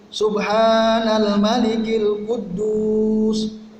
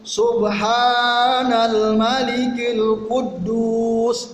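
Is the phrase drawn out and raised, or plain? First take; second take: plain; drawn out. First: It is said plainly, not drawn out. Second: It is drawn out and said higher.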